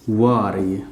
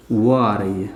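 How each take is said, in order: Both takes have the same delivery.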